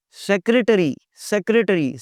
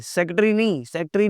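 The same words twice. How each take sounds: First: "सेक्रेटरी" in four syllables, sek-re-ta-ree; correct "secretary". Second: "सेक्रेटरी" squashed to SEK-tree; wrong "secretary". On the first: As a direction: sound the first r in "सेक्रेटरी". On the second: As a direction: drop the middle re from "सेक्रेटरी". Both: Shown as a demonstration. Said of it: "सेक्रेटरी नहीं".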